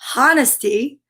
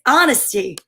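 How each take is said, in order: First: The word begins with a sounded H. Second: The word begins with a silent H. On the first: The speaker calls it wrong. "We don't say honesty" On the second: The speaker calls it right. "sometimes it's silent, like in honesty"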